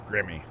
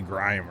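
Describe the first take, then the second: First: The name is said as two syllables. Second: The name is said as one syllable. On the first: The speaker calls it right. "It's Grimmy" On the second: The speaker calls it wrong. "You say grime or something"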